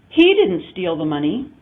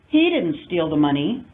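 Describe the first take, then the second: First: The word he carries the main stress. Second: The word he carries the main stress.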